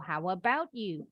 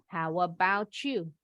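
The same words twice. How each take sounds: First: The t and y are said separately. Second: The t and y blend into a ch sound. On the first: "Itu juga boleh" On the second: "Yang ini T ketemu Y boleh bunyinya jadi C H"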